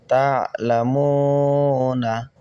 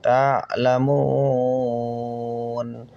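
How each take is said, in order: First: তা'লামুনা said in full, with the final na, drawn out slowly; connected form. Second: তা'লামুন with the final vowel dropped, ending on a long held n; pausal form. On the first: Teacher spells out the word before showing the pausal stop, with the full ending. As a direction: say তা'লামুনা with the closing vowel kept, as when reading on. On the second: Teacher shows students how to stop on the word, long held n. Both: Shown as a demonstration. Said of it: "অক্ফ করলে".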